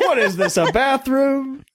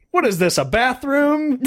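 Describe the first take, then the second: First: High and very slow on bathroom; outraged mock complaint, slow bathroom; mock upset catchphrase. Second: Slow, high, laughing mock outrage; high laughing mock complaint; mock upset catchphrase. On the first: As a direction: drag out the complaint in mock disgust. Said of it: "Anytime there's a shitty situation". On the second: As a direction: toss it off like you're fed up, laughing. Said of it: "the English version of that whenever I'm upset".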